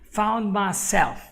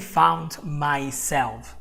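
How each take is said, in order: First: The sounds are shortened and reduced, said fast. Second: Each sound is said fully and carefully. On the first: The speaker calls it right. "This is the way you say this one" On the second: The speaker calls it wrong. "I'm not saying found myself"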